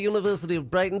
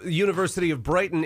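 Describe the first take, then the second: First: It is said in a put-on British accent. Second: It is said in the speaker's normal accent.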